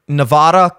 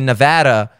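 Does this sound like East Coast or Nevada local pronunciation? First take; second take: East Coast; Nevada local. First: It is said the East Coast way. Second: It is said the Nevada local way.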